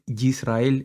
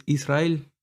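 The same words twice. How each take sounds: First: "Yisrael" with a hard Spanish Y as in yuca; wrong pronunciation demo. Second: "Israel" starting on a pure I vowel; correct pronunciation demo. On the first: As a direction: start "Yisrael" on a slow, buzzy j-like Y. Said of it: "pronunciar la palabra Israel con una Y". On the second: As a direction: open "Israel" with a clean ee, no consonant before it. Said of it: "Es una I, no es una Y". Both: Shown as a demonstration.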